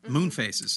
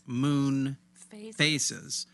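First: The name runs together as one word. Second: The name is split into two separate words. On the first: The speaker calls it right. "all one word" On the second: The speaker calls it wrong. "not Moon Faces"

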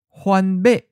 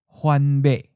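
First: The last syllable is high and cut off abruptly. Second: The last syllable is mid-pitched and cut off abruptly. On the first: "High stop" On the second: "Mid stop"

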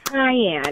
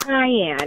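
First: The word sounds like 'kai-yen'. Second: The word sounds like 'kai-yen'.

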